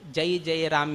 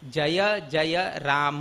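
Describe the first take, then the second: First: Each jaya is cut to one syllable, jay. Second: Each jaya is said in full as two syllables. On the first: The speaker calls it wrong. "याना" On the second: The speaker calls it right. "येवका"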